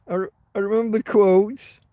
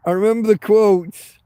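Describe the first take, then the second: First: Said in the usual way. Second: Loud. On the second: Real, not acted.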